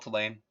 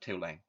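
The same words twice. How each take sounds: First: It is said the outsider way, not like 'two lane'. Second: It is said like the words 'two lane'. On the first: "I call it Tulane" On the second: "if you're from New Orleans, it's Tulane, not one lane, but Tulane"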